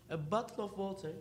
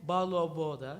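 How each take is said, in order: First: "a bottle of water" said plainly, with clear t sounds. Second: "bottle of water" mimicked as ba-lo-b-oda, with the t sounds dropped; mock the other way of saying "bottle of water"; imitating British pronunciation. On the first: Student gives the easy way to say bottle of water. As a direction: say "a bottle of water" as the usual version. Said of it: "you can say". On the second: Student imitates how the British say bottle of water, t sounds dropped. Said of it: "they're saying". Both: Shown as a demonstration.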